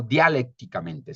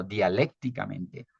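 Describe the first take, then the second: First: Dialécticamente stressed on the wrong syllable, not on the first E; dialécticamente said slowly with the accent misplaced, away from the É. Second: Dialécticamente with the stress on the É, dia-LÉC-ti-ca-men-te; dialécticamente said slowly, leaning on the É; correctly stressed dialécticamente. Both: Shown as a demonstration. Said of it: "la tilde va en la E".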